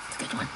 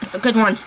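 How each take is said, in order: First: "It's a good one" much softer, almost to herself; quiet murmured repeat of "It's a good one"; hushed aside. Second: Said in the usual way. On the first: Real, not acted. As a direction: drop to a near-whisper on "It's a good one". Repeats praise, second time softer.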